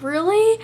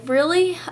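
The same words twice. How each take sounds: First: "Really?" much higher and louder, almost a squeal; overjoyed disbelief. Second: A high, loud "Really?" in disbelief; surprised. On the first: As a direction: relive the moment you heard you passed. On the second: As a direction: ask "Really?" as if you can't believe you passed. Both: Retold or imitated. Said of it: "I was like".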